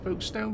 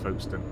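First: The name is said in a non-local, outsider way. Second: The name is said in the local British way. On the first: This is the form aimed at foreign viewers. "I say it's Folkestone because we get quite a few American viewers" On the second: This is how locals say the name. "over here we call it Folkestone"

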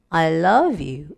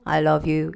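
First: The pitch moves naturally across the phrase. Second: The pitch stays flat like a robot. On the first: The speaker calls it right. "제일 자연스럽게" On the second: The speaker calls it wrong. "무슨 에이아이도 아니고 그런 소리를 낸다"

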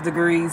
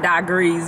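First: The word is said in a standard accent. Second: The word is said in a country accent. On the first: The speaker calls it right. "I know it's degrees" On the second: The speaker calls it wrong. "my country accent because I say degrees"

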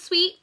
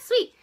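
First: It is said plainly as a name. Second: It is said as an excited exclamation. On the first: It is the name of the shade. "This is Sweet" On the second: Something is great. "like, oh my god, Sweet"

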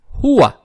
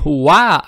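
First: The stress is on the first syllable. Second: The stress is on the second syllable. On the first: The speaker calls it right. "ударение идет на букву ха" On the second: The speaker calls it wrong. "не хуа"

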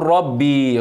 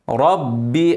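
First: The final vowel is stretched long. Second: The final vowel is kept short. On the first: The speaker calls it wrong. "اوعى تقول ربي غلط" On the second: The speaker calls it right. "مكسورة مفيش بعدها ياء مد"

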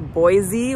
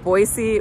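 First: The middle consonant is a buzzing Z sound. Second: The middle consonant is a hissing S sound. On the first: This is how outsiders say it. "we outsiders say Boise with a Z sound" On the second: This is how the locals say it. "most locals here pronounce it Boise with an S sound"

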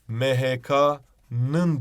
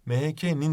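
First: The suffix is said with the back vowel 'ı'. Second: The suffix is said with the front vowel 'i'. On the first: The speaker calls it wrong. "MHK'nın diyesi geliyor öğrencinin" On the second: The speaker calls it right. "MHK'nin dememiz gerekiyor"

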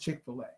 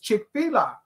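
First: The middle part sounds like 'filet'. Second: The middle part sounds like 'fila'. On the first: The speaker calls it wrong. "She says it's Chick-fil-A" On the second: The speaker calls it right. "I say that it's Chick-fil-A. Look at the way that it's spelled. It's F-I-L-A"

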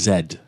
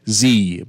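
First: It is said in a fancy Belgian accent. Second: It is said in a plain accent.

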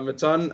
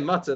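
First: The name is said unlike the word mutton. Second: The name is said like the word mutton. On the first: The speaker calls it right. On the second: The speaker calls it wrong.

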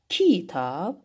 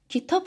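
First: The stress is on the first syllable. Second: The stress is on the second syllable. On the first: The speaker calls it wrong. "hər ikisini bir dəfə qüvvətli deməklə" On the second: The speaker calls it right. "daha normal səsləndiyinə görə vurğu düşəcək tabın üzərinə"

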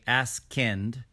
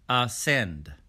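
First: The word has a 'k' sound after the 's'. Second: The word has no 'k' sound after the 's'. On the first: The speaker calls it wrong. "We don't say askend" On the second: The speaker calls it right. "we say ascend"

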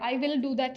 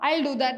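First: 'I will' is said as two full words. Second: 'I will' is contracted to 'I'll'. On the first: The speaker calls it wrong. "എന്ന് പറയില്ലല്ലോ" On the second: The speaker calls it right. "സ്പീഡിൽ പറയുമ്പോൾ ഐ വിൽ do that എന്നാ പറയാ"

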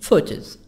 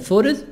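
First: The T is pronounced as a clear T. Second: The T is softened toward a D sound. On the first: "British photos" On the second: "In American photos. / T soft D"

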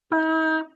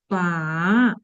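First: The pitch stays high and level. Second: The pitch dips low, then rises. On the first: "перший тон. Він іде зверху" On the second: "третій тон"

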